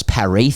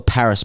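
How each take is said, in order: First: Paris with a silent "s", ending on a stressed "ee"; French pronunciation. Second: Paris with the final "s" sounded, English style; English pronunciation. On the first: Host contrasting city names, Paris said the French way. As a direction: say Paris as pa-REE. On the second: Host contrasting city names, Paris said the English way. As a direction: say Paris as PA-riss. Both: Shown as a demonstration. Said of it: "Paris thing on this".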